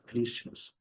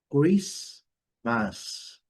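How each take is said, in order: First: Christmas with the T sounded; wrong pronunciation. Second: Christmas in two slow parts, silent T; correct Christmas. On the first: Teacher shows what not to say, Christmas with a T. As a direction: say Christmas as KRIST-mas, the way to avoid. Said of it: "not Christmas". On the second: Teacher models it for learners, slow split demo. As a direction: say Christmas slowly as KRIS-mas. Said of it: "como devemos pronunciar". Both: Shown as a demonstration.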